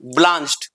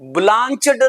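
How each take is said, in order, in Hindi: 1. शब्द के अंत में सादी 't' ध्वनि है। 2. शब्द के अंत में एक अतिरिक्त अक्षर है। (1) "effective and right pronunciation would be" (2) "ब्लांचड नहीं"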